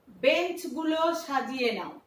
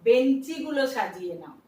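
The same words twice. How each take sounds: First: বেঞ্চগুলো without the added ই; বেঞ্চগুলো, no vowel after ঞ্চ; বেঞ্চগুলো said as written; as spelled. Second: বেঞ্চিগুলো with an added ই after ঞ্চ; বেঞ্চিগুলো, louder, ই clearly heard; বেঞ্চিগুলো as people say it; everyday form. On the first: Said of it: "আমরা নিজেরাও কিন্তু বলি না". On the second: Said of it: "কি বলি?". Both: Shown as a demonstration.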